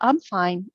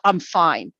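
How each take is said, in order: First: It sounds cheerful and genuinely content. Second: It sounds grudging and not really content. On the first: The person really is doing well. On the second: The person is not actually fine.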